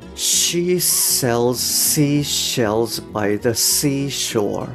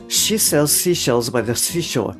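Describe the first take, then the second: First: The sentence is spoken slowly and carefully. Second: The sentence is spoken quickly and smoothly. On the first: "最初ゆっくりやってで音素を意識しながらやってみます" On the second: "徐々に速くしていきますね"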